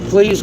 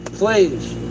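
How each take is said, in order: First: It is said quickly and offhandedly. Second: It is said pleadingly and sincerely. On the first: The asker does not really mean it. The speaker calls it wrong. "You're just throwing it out there like that?" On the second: The asker truly means it. The speaker calls it right. "if it sounds a little bit more sincere"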